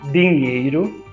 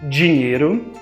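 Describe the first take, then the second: First: The syllable 'di' is said the regional way. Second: The syllable 'di' is said the usual way. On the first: "Em algumas regiões do nosso país... são pronunciadas" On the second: "Com D, I, di, escrevemos dinheiro"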